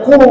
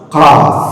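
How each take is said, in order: First: The letter is read as a short qu. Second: The letter is read as full qaf. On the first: The speaker calls it wrong. "tidak boleh kita baca qu" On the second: The speaker calls it right. "harus qaf"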